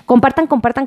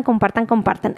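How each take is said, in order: First: Said in the usual way. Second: Much softer, like an echo dying away; fading echo. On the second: Pretend. Host echoing her share request, fading softer. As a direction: let it fade out like an echo. Echoed repeat of share call.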